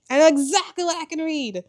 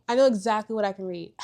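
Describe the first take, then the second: First: Much higher and louder, thrilled, stress on know; excited repeat. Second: Said in the usual way. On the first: Shown as a demonstration. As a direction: say it again bursting with excitement. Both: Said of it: "repeated louder and higher".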